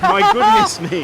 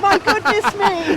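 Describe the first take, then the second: First: Very high, loud and slow; high squeal. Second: In ice cold water. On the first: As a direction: squeal it out in cold shock. Echoing friend, squealing. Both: Real, not acted.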